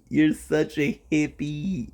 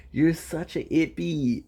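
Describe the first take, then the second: First: Slow, drawn-out teasing; teasing put-on voice. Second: Said in the usual way. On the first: Shown as a demonstration. Teasing the guest about being a hippie, in a slow mock voice. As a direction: stretch it out in a mock voice.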